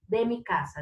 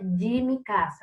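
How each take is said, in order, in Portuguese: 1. A palavra de é pronunciada com um d simples. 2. A palavra de é pronunciada como dji. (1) "sempre vai ter esse som de de" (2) "Então não é de mi casa"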